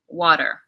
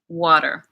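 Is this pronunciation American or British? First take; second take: American; American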